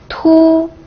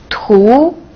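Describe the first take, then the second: First: The pitch stays high and level. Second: The pitch rises from mid to high.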